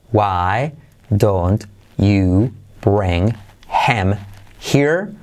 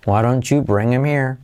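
First: Slow, separated words with every H sounded; careful textbook delivery, pauses between words; word-by-word version. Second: WHY DON'T YOU BRING HIM HERE linked as "why-ron-chu bring-im-eer"; connected native-speaker flow; native style. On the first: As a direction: spell out WHY DON'T YOU BRING HIM HERE one word at a time. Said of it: "Pero dicho al estilo nativo". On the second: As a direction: run it together, dropping the H's. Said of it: "dicho al estilo nativo". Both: Shown as a demonstration.

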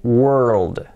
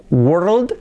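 First: WORLD long and falling, wer-ruld with a dark L; slow, careful model WORLD; correct pronunciation. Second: WORLD short and higher, rising, with a plain o; too-simple learner's WORLD; mispronounced world. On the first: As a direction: stretch WORLD through R, L and final D. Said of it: "hay que decir world". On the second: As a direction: toss off WORLD as a quick wor-ld. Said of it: "Así que no valía decir". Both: Shown as a demonstration.

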